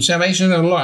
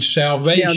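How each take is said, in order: First: It is said flatly, by rote. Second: It is said with heartfelt conviction.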